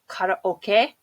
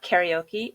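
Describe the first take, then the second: First: The final e is sounded like 'a'. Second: The final e is not sounded like 'a'. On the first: The speaker calls it right. "it's karaoke" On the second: The speaker calls it wrong. "karaoke is not karaoke"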